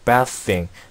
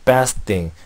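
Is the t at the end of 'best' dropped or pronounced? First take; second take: dropped; dropped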